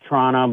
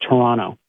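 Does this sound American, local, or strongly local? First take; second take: strongly local; local. First: It is an even more reduced local way. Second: It is the local way, without the second T.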